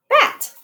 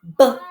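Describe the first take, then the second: First: Said in the usual way. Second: Bat split into its sounds; sounded out. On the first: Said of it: "So let's do bat". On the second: Shown as a demonstration. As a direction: segment bat slowly sound by sound. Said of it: "to do the first sound green, middle sound yellow".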